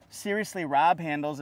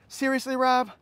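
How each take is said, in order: First: Said in the usual way. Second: Mock ad line. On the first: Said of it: "as Toyota's calling it". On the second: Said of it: "from their commercial".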